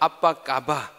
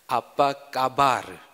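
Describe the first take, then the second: First: The final r sound is dropped entirely. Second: The final r sound is clearly pronounced. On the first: The speaker calls it wrong. "안 그러면 아빠 까바. 예, 이렇게 되면 안 되기 때문에" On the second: The speaker calls it right. "뒤에 르를 해주셔야 돼요"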